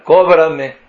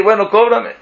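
First: Pidiendo cortés. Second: Más alto, ya exasperado, bueno, cóbrame; que se note que ya lo pidió muchas veces; insistencia impaciente. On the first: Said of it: "y yo le escribo". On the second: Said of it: "y le vuelvo a pedir". (pidiendo por enésima vez, con impaciencia) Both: Retold or imitated.

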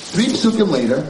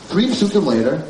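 No difference in how they are said.

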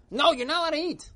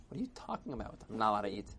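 First: High, loud scolding shout; upset. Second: Low-key, puzzled grumble; unbothered reply. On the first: Crowd scolds old man on fast day, upset shout. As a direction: shout the ban in outrage. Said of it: "they were all upset". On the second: Old man puzzled by the crowd, quiet and unbothered. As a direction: question it softly, without rising to the shouting. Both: Acted.

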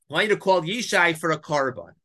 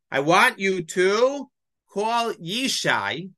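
First: Said in the usual way. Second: Each word drawn out slowly; slow stressed quote. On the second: Shown as a demonstration. Teacher slowing down to stress God's instruction, drawn out. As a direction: spell out God's command word by word.

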